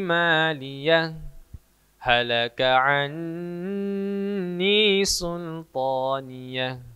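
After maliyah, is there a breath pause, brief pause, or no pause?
breath pause. A full stop after maliyah, with a breath. "se stop dan menarik nafas"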